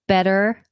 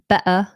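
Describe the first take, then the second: First: The middle T is a quick flap. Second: The middle T is a glottal stop. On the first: This is the more American way. "the way we treat the T is less flapped. Um, that's more American" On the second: This is a more British way. "or like a glottal T"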